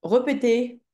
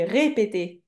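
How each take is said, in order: First: "Repeter" opening on a schwa, re- instead of ré-; wrong pronunciation. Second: "répéter" with closed é in every syllable; correct pronunciation. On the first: Teacher repeats the pupil's written error, demonstrating. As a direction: say "Repeter" with a dull first e. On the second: Teacher gives the pupil the right form, demonstrating. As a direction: sound out "répéter" starting on a clear ré. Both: Shown as a demonstration. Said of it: "On dit répéter".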